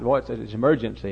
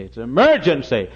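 First: Said in the usual way. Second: Louder, pressing the word emergency; urgent louder plea. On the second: Retold or imitated. Pastor urging the TV man to come out, louder. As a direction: insist it's an emergency, louder. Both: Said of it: "I said".

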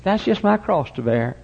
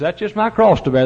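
First: A light mock sigh of a woman with a backache; lightly voiced long-suffering lady; imitating a complaining lady. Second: Higher, louder mock complaint of a put-upon fellow; a hint of a husband groaning about his mother-in-law. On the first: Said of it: "and she says". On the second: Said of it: "mother-in-law comes to live with him and says".

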